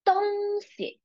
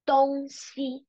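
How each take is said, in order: First: The second syllable is soft and unstressed, neutral tone. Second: The second syllable has a high level first tone. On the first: It means things or stuff. "the C you have to pronounce it softly" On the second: It means east and west. "If you read the C in the first tone"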